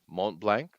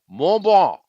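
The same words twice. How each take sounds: First: Mont Blanc is said with an English pronunciation. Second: Mont Blanc is said with a French pronunciation. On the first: The speaker calls it wrong. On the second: The speaker calls it right.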